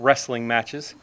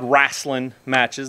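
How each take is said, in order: First: Wrestling is said with a standard pronunciation. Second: Wrestling is said with a Southern pronunciation. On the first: This is not how the family said it. "They weren't" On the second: This is how the family said it. "we had the proper Southern pronunciation of it"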